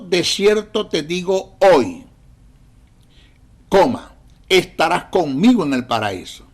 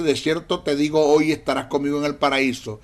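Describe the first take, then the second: First: The pause comes after the word hoy. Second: The pause comes before the word hoy. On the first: Today is when the promise is being spoken. The speaker calls it right. "si nosotros colocamos la coma después del hoy" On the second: Today the listener will be in paradise. The speaker calls it wrong. "colocaron la coma antes del término hoy"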